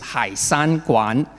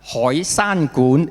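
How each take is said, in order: First: The name is said with non-Cantonese sounds. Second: The name is said with Cantonese sounds.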